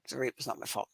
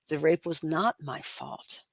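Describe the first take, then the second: First: It sounds flat and mechanical, just going through motions. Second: It sounds heartfelt and believed, with real conviction.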